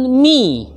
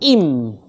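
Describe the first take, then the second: First: The syllable begins with the consonant sound. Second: The syllable begins with the vowel sound. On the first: The speaker calls it right. "diucapkan mi" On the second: The speaker calls it wrong. "dan bukan im"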